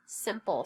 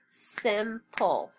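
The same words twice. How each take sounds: First: Said in the usual way. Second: Simple as two beats, SIM, pull; split into syllables. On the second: Shown as a demonstration. Teacher snapping the word with class, syllable by syllable. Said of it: "Snap it".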